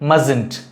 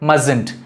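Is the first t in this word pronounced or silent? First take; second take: silent; silent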